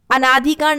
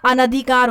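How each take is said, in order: First: अनाधिकार with long naa; wrong form. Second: अनधिकार with short na; correct form. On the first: Teacher showing a common mistake, अनाधिकार with long naa. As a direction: lengthen the second vowel of अनाधिकार to aa. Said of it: "अनाधिकार नहीं होता". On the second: Teacher correcting the mistake, अनधिकार with short na. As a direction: keep the second vowel of अनधिकार short. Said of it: "अनधिकार होता है". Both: Shown as a demonstration.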